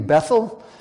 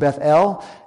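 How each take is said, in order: First: The stress is on the first syllable. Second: The stress is on the second syllable. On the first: This is the American way of saying it. "we Americans would incline to call this city Bethel" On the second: This is the Hebrew way, stressing the name of God. "in Hebrew, it would be pronounced Beth-El ... the emphasis would be on God's name, El"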